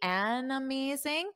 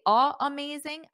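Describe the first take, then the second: First: The sounds join smoothly into 'amazing'. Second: There is a break before 'amazing'. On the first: The speaker calls it right. "I can combine the sounds together" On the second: The speaker calls it wrong. "I take a pause"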